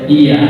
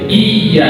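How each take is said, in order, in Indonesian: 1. Bunyi y tunggal dan pendek. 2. Bunyi y digandakan dan ditahan. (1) "tidak boleh" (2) "harus dibaca dengan tasydid"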